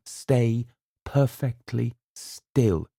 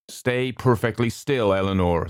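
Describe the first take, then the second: First: Slow, steady calming order; calm command. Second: Calm command. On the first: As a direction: keep her still, calm. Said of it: "he said". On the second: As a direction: hold her still, gently. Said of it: "the doctor said". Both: A narrator's reading.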